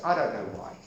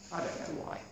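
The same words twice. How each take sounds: First: Said in the usual way. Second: Breathy aside, barely voiced; soft whispered echo. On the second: Shown as a demonstration. Repeated line whispered.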